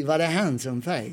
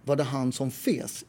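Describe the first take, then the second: First: Slow Skåne accent, han som fes; southern Swedish accent. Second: Clipped-free Stockholm pronunciation, slow; Stockholm Swedish. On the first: Showing friends how southerners say it, Skåne accent. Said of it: "if you're from the south of Sweden". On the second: Telling friends how Stockholmers say it, slow Stockholm accent. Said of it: "And in Swedish you would say". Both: Shown as a demonstration.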